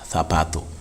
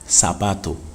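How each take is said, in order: First: The z is said like a th. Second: The z is said like an s.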